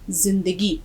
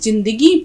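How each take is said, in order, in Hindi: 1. यह शब्द 'z' की आवाज़ से शुरू होता है। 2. यह शब्द 'j' की आवाज़ से शुरू होता है।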